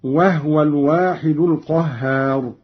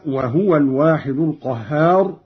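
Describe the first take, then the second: First: وهو with vowelless ha, wahwa; silent ha reading. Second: وهو with a u on the ha, wahuwa; reference reading. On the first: Reciter showing Qalun's reading, ha without vowel in وهو. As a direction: recite وهو in two syllables, wah-wa. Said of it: "قرأ قالون بإسكان الهاء". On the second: Reciter giving the verse before the variant, voweled ha in وهو. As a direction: recite وهو in three syllables, wa-hu-wa. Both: Shown as a demonstration.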